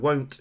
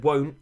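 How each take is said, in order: First: "won't" with a crisp final T; sounded final T. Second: "won't" with the final T swallowed; soft final T. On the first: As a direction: enunciate the T ending "won't". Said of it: "I've just demonstrated that we don't actually do that". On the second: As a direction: say "won't" casually, dropping its T. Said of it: "in Australian you will have soft letters". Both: Shown as a demonstration.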